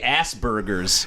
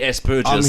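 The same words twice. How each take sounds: First: The word is pronounced the American way. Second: The word is pronounced the local way. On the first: This is how Americans say the name. "The Americans say Asperger's" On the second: This is how people here say the name. "here we say Asperger's"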